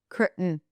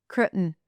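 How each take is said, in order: No difference in how they are said.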